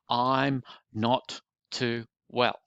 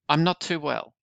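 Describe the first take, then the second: First: Each word is spoken separately. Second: The words are run together smoothly. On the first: The speaker calls it wrong. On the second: The speaker calls it right. "put the words together"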